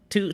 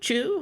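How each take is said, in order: First: It begins with a plain t sound. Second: It begins with a ch sound.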